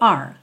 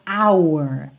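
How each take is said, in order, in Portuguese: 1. A palavra é reduzida para soar como 'are'. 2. A palavra é totalmente articulada, com muito movimento da boca. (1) "numa fala mais rápida, soa meio are" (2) "com muita articulação, a gente acaba mexendo muito a boca"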